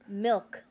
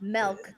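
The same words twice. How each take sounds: First: The vowel is a short 'ih' sound. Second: The vowel is an 'eh' sound, like 'melk'. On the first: The speaker calls it right. "it's milk" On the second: The speaker calls it wrong. "There's no e in milk"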